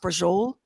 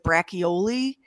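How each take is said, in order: First: The word is said shortened, with the final vowel dropped. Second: The word is said fully, the way it is spelled. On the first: This is how it is actually said. The speaker calls it right. "But it's pronounced brujol" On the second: This is how the spelling suggests it is said. The speaker calls it wrong. "It looks like brachioli"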